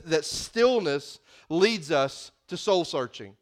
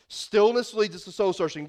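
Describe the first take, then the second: First: Stillness said slowly, weight on stillness; slow stressed point. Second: Said in the usual way. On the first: Shown as a demonstration. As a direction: lay out the point slow and heavy. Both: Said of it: "The first reason is this".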